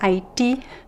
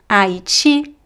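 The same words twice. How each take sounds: First: The final T is a plain T. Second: The final T sounds like 'ch'. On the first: "Some people would say" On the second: "I will always pronounce the T as chi"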